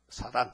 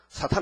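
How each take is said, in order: First: The word is said plainly without a forceful accent. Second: The word is said with a strong, forceful accent. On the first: The speaker calls it right. "사단입니다" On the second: The speaker calls it wrong. "악센트를 해서 사탄을 가요. 사탄 아닙니다"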